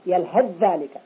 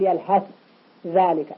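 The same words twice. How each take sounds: First: The th sound merges into the following dh. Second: The th sound is pronounced separately. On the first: The speaker calls it right. "الذال المتأخرة تسيطر على الثاء" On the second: The speaker calls it wrong. "ولا نقول"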